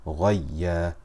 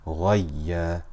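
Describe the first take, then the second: The two takes are said the same way.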